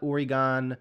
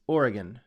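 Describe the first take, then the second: First: The final syllable is a full, clear 'gon'. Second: The final syllable is reduced and smoothly blended. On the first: The speaker calls it wrong. "It's not Oregon. It, there's no gon" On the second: The speaker calls it right. "It's all nice and smooth"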